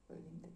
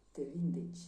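First: "Vă vindeți" repeated very softly as the mistaken form; "vindeți" with a "ți" ending, quietly quoting the slip; mocking the slip. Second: "vindeci" with a clear "ci" ending, stated firmly; correct form. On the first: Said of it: "am zis". („vă vindeți” repetat încet, ca greșeala de mai devreme) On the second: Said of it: "E un fel de te vindeci la plural". („te vindeci” rostit corect, apăsat pe „vindeci”) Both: Shown as a demonstration.

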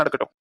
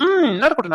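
First: நடக்கட்டும் dropped much lower and softer; sulky aside, நடக்கட்டும் said low and soft; muttered repeat. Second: Said in the usual way. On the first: Acted. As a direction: mutter நடக்கட்டும் under your breath. Son teasing mother's support.

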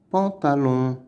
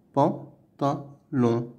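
First: Said in the usual way. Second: "Pantalon" slowly as "pan", "ta", "lon"; syllable by syllable. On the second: Shown as a demonstration. Teacher counting out sounds for pupils, "Pantalon" in three slow pieces. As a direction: pause after each syllable of "Pantalon". Word modelled whole, then split.

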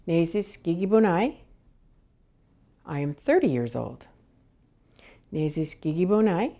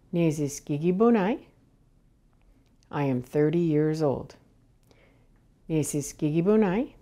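Both takes have the same delivery.

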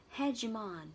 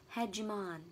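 First: Hegemon with weight on HE, ending "on"; HEgemon, first syllable strong; teacher modelling Hegemon stress. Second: Hegemon, last syllable "on", HE stressed; teacher repeating Hegemon clearly; model pronunciation. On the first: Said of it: "Trọng âm rơi vào từ he". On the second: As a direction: say Hegemon ending in on. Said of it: "cái từ cuối cùng đọc là on". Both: Shown as a demonstration.

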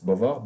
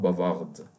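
First: "Bavard" with no d at the end; slow "Bavard", last letter left silent; final D silent. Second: "bavarde" with a sounded d at the end; slow "bavarde", closing d clearly voiced; final D pronounced. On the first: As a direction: stop "Bavard" on the r sound. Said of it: "if we didn't pronounce any". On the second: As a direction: finish "bavarde" on a released d. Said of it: "just we pronounce it in this case". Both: Shown as a demonstration.

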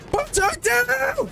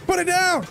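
First: "Put it down." screamed very high and drawn out slowly, stress on down; full frantic shriek at the teammate; screaming fit. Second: "Put it down." pleaded much higher, urgent, stress on put; panicked plea. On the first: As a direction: peak of a real panicked scream. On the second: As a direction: beg the teammate urgently, voice already high. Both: Real, not acted. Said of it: "that little screaming fit".

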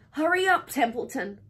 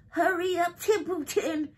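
First: Anxious raised call; urgent pleading. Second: High, mocking squeal; sneering high-pitched mimicry; imitating Wilbur. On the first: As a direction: press them to move now. Pig begs rat to hurry. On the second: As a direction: parrot a plea in a mock whiny voice. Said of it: "He began imitating Wilbur's voice". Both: A narrator's reading.

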